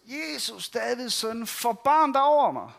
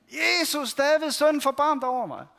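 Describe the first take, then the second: First: Higher-pitched pleading call. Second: Higher, louder pleading shout. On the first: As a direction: call out to Jesus as he passes by. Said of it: "Og så råber han ellers". (bønfaldende råb) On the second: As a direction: shout over the crowd that tries to hush you. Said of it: "råber han bare endnu højere". (højere, råbende bøn) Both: Retold or imitated.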